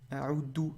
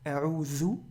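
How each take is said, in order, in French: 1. La consonne du milieu est un d simple. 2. La consonne du milieu est un th doux. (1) "Aoudou avec un del, alors que ce n'est pas un del" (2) "je me protège"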